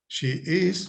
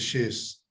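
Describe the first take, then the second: First: The two words are said separately in full. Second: The two words are joined into one syllable.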